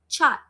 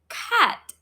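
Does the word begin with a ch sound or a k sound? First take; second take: ch; k. First: The word begins with a ch sound. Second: The word begins with a k sound. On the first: The speaker calls it wrong. "We don't go and say chat" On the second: The speaker calls it right. "So we call it cat"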